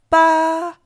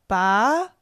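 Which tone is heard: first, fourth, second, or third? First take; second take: first; second. First: The pitch stays high and level. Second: The pitch rises from mid to high.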